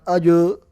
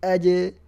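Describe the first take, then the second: First: The echo after the consonant sounds heavy and dark. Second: The echo after the consonant sounds light and thin. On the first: The speaker calls it wrong. "Bukan ajo" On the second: The speaker calls it right. "pantulannya itu tipis"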